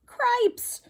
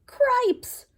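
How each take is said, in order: First: High mouse shout of alarm. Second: High, sharp mouse cry; startled mouse. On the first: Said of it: "shouted Furlough". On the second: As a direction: yelp it in shock, high up. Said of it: "said Furlough". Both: Acted.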